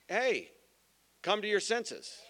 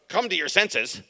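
First: It is said in a gentle, friendly tone. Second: It is said in a harsh, abrasive tone.

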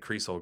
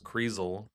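First: The middle consonant is an s sound. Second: The middle consonant is a z sound. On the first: This is the family's own way. "I say Kriesel because that's how my mom said it" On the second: This is the original German way. "Kriesel with the Z sound because it's German"

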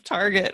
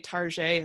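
First: The name is pronounced in the ordinary way. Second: The name is pronounced in a fancy, elevated way. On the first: The store is named in the everyday way. "instead of Target" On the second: The plain store is made to sound upscale. "the people, you know, that say Target"

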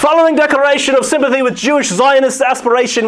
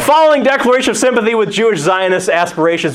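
First: It is read in a put-on British accent. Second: It is read in a plain American accent. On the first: "I feel like I should read this in a British accent" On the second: "I'm going to go back to American"

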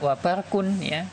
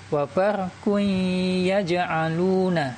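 First: The n is pronounced clearly before the y. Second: The n merges into the y with nasalization. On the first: The speaker calls it wrong. "Tidak dibaca wa barqun ya" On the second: The speaker calls it right. "seperti itu bacanya"

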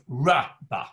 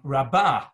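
First: The stress is on the first syllable. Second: The stress is on the second syllable. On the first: It has already become great, in the past. "with the accent on the first syllable" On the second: It is great now, in the present. "with the accent on the second syllable"

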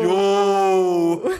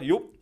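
First: It is said in a sarcastic way. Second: It is said in a plain way.

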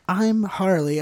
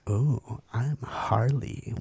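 First: It is said in a playful, fun tone. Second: It is said in a flatter, serious tone.

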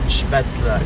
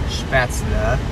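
First: The word has a native German pronunciation. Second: The word has an American English pronunciation. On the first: The speaker calls it right. "Es ist Spätzle" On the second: The speaker calls it wrong. "Das ist eine amerikanische Aussprache und ist falsch"

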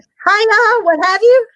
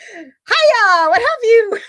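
First: It is said plainly, without much feeling. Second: It is said expressively, with feeling.

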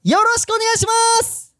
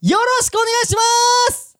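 The two takes are said the same way.

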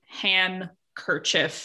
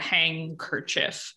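First: The first syllable ends in a plain n sound. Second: The first syllable ends in an ng sound. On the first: "without the D in there, you get han kerchief" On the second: "that smooshes into hang kerchief"

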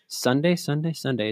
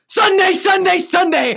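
First: It is said with low energy. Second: It is said with high energy.

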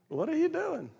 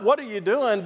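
First: It sounds curious and interested. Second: It sounds accusing and upset.

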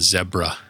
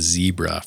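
First: Zebra is said the British or Irish way. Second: Zebra is said the North American way. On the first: This is how people in England or Ireland say it. "if you go over to like England or Ireland, they call it a zebra" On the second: This is how people at home say it. "instead of a zebra"

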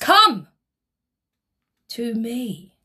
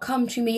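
First: It is said forcefully, as an exclamatory command. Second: It is said plainly, without exclamation.

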